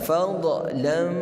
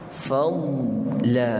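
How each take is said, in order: First: The 'dh' consonant is released with an echoing bounce. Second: The 'dh' consonant is held still without any bounce. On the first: The speaker calls it wrong. "sering berlaku dhad bila mati dilantunkan. Bagaimana?" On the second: The speaker calls it right. "matikan dia, tahankan dia, jangan angkat makhraj kita"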